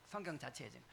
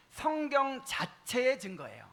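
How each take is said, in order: First: Much softer and lower repeat; low, quiet restatement to oneself; hushed echo. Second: 성경 자체의 drawn out slowly, pitched high; high, deliberate emphasis on 성경 자체의; emphatic key point. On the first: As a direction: drop right down as an afterthought. Softer echo of the key point. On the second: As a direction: announce 성경 자체의 slowly, stretching each word. States key point, then echoes it. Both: Real, not acted.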